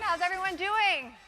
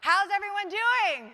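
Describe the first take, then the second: First: It is said in a calm, ordinary way. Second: It is said loudly with high energy.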